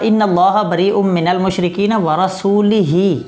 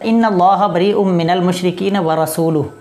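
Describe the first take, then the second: First: The l in rasul is followed by an i vowel. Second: The l in rasul is followed by a u vowel. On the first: God disowns the polytheists and His own messenger. The speaker calls it wrong. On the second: The messenger also disowns the polytheists. The speaker calls it right.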